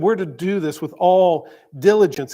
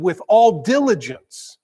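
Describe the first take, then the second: First: Said in the usual way. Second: "all" pressed louder and slow, "diligence" drawn out; stress on ALL. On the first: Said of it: "written that way to demonstrate emphasis". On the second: Shown as a demonstration. Preacher shows Solomon writing with emphasis, stress on "all". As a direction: lean hard on "all" in "With all diligence". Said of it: "was writing with emphasis".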